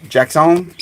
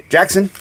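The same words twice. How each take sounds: First: Jackson with a stretched last syllable, "Jack-SOHN"; name with a twist. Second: Said in the usual way. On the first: Real, not acted. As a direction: say Jackson fancily, ending in a long "sone". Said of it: "Had to put a little twist on it". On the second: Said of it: "Sorry, Jackson".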